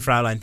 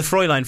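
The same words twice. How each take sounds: First: FRAULEIN said as FROW-line; mistaken pronunciation. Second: FRÄULEIN said as FROY-line; German pronunciation. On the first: Co-host comparing both versions, FRAULEIN said as FROW-line. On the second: Co-host comparing both versions, FRÄULEIN said as FROY-line. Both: Shown as a demonstration. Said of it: "Fraulein thing".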